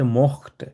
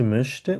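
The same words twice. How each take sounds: First: "mochte" with plain o and throaty ch; no umlaut. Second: "möchte" with a fronted ö, not o; with umlaut. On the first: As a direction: keep the o in "mochte" open, no umlaut. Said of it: "তখন umlaut দেয়া যাবে না". ("mochte", umlaut ছাড়া ও উচ্চারণ) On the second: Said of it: "umlaut থাকবে". ("möchte", umlaut সহ ö উচ্চারণ) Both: Shown as a demonstration.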